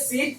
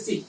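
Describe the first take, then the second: First: First সিট with a long ee, as in "seat"; long-vowel seat. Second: Second সিট with a short i, as in "sit"; short-vowel sit. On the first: Teacher contrasts two words, long-vowel সিট. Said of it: "এটা সিট মানে বসার জায়গা". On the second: Teacher contrasts two words, short-vowel সিট. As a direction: keep the vowel of সিট brief. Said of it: "সিট আর সিট difference আছে". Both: Shown as a demonstration.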